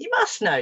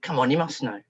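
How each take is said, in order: First: High, pressing insistence; insistent. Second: Said in the usual way. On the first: Retold or imitated. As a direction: push the child for an answer in a raised pitch. Repeats it with more insistence.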